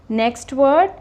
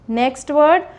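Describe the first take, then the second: No difference in how they are said.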